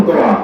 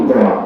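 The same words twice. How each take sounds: No difference in how they are said.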